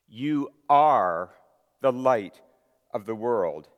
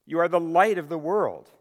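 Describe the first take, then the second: First: "are" punched loud with pauses between phrases; stress on ARE. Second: "light" hit high and loud, the rest even; stress on light. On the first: Shown as a demonstration. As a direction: hammer "are", then pause before "the light" and "of the world". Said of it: "very emphatic". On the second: Acted. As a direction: lift and punch the word "light". Scripture read, light stressed.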